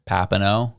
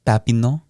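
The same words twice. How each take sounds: First: Papineau said the English way, flat and hard; anglicized. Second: Papineau said the French way, with a final rising -neau; French pronunciation. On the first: Showing his cohost the butchered English way. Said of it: "absolutely bastardized, anglicized version is". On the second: Showing his cohost the proper French way. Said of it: "the French version is". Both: Shown as a demonstration.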